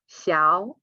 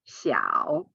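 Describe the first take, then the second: First: The syllable is said with a rising tone. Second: The syllable is said with a dipping tone. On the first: "the first one will change to second tone" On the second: "instead of"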